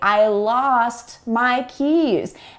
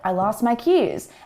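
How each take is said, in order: First: Spoken carefully, with the T in 'lost' pronounced. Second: Spoken quickly, with the T in 'lost' silent. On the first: "I would carefully enunciate every sound" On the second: "You really don't hear that T sound if I speak quickly"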